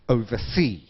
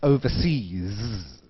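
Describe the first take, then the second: First: The word ends without a final s sound. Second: The word ends with a final s sound. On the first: The speaker calls it wrong. "everybody always says oversea" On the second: The speaker calls it right. "应该用 S"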